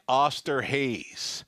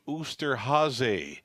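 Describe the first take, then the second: First: The name is read with an English-style pronunciation. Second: The name is said with a German-style pronunciation. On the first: The speaker calls it wrong. "I'll tell you what it read like" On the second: The speaker calls it right. "You pronounce the name Oosterhase"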